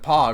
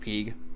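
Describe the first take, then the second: First: The name is said with an 'o' vowel. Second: The name is said with an 'ee' vowel. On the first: The speaker calls it wrong. "Not gonna pronounce it Pog" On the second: The speaker calls it right. "Pretty sure it's pronounced Peeg"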